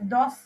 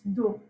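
First: The word ends with an audible s sound. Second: The word ends without any s sound. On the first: The speaker calls it wrong. "You are not pronouncing it as dos" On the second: The speaker calls it right. "It's do"

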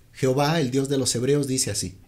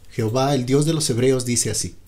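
The two takes are said the same way.

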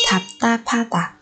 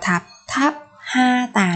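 First: The h merges into an aspirated, tense consonant. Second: The h sound is pronounced as a separate syllable. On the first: The speaker calls it right. "Thạp ta pa ta mới là đúng" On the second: The speaker calls it wrong. "không đọc là thạp tháp ha tà nữa các bạn nhé"

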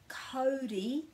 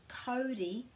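The two takes are said the same way.

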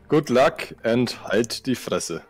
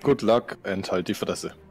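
First: It is said more slowly. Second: It is said at normal speed.

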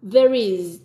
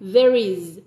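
No difference in how they are said.

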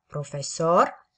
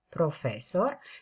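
First: The stress is on the third syllable. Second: The stress is on the second syllable. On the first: "sau pe a treia silabă" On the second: "accentul poate cădea fie pe a doua silabă"

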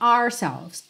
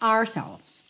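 First: The word is shortened and said quickly. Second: The word is shortened and said quickly.

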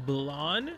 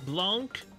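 First: The name ends without a final k consonant. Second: The name ends with a sounded final consonant. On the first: "B-L-A-N-C as Blonde" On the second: "They pronounce the C as Blanc"

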